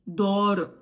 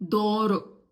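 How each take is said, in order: No difference in how they are said.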